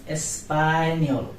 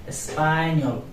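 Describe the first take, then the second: The two takes are said the same way.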